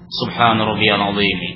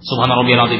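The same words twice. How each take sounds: First: It is recited calmly and unhurriedly. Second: It is recited hurriedly, without calm.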